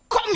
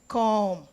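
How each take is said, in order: First: It sounds harsh, sharp and intimidating. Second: It sounds soft, warm and inviting. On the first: The child fears being in trouble. The speaker calls it wrong. "There's a way you say it that will be so intimidating and so frightening" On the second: The child feels welcome and at ease. The speaker calls it right. "you will feel welcome"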